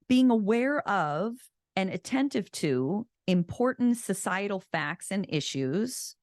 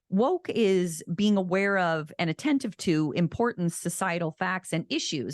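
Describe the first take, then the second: First: It is said slowly. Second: It is said quickly.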